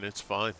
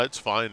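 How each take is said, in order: First: "It's fine" dropped much softer, trailing; softer repeat. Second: Said in the usual way. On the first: Real, not acted. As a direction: let the repeat fade to reassure. Reassuring viewer, said twice.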